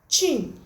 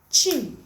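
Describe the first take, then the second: The two takes are said the same way.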